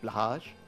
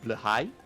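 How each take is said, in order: First: The word ends with a 'hage' sound. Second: The word ends with a 'high' sound. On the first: This is the everyday English way of saying it. "I know it's not pronounced that way in the original Swedish" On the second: This is closer to the original Swedish. "I believe it's more like blahai"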